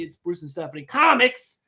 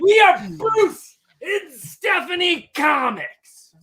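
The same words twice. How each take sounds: First: Said in the usual way. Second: Slow booming hype-man shout; wrestling promo. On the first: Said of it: "Ob-, obviously". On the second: Acted. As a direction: stretch it out like a ring announcer. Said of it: "Bruce is the hype man".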